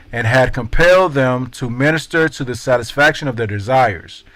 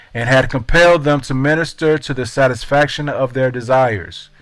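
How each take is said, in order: No difference in how they are said.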